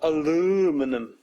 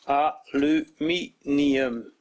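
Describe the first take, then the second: First: The word is said with four syllables, ending '-num'. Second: The word is said with five syllables, ending '-nium'. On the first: The speaker calls it wrong. "not aluminum" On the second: The speaker calls it right. "Say it with me. Aluminium"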